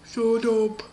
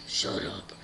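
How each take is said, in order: First: Loud, booming order; gruff doorkeeper. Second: Deep, hushed villain order; Lord Voldemort. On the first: Guy behind the door silences everyone, loud booming voice. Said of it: "behind the door was like". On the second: Villain silences the squealing girl, deep whisper. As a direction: cut it off in a low whisper. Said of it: "And Lord Voldemort's like". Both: Acted.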